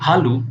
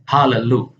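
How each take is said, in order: First: No vowel separates the two l sounds. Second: A vowel separates the two l sounds. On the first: The speaker calls it wrong. "kita tidak boleh membacanya sebagai halu" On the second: The speaker calls it right. "melainkan halelu"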